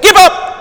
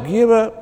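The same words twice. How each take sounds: First: It is said boldly and with command. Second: It is said timidly and without force.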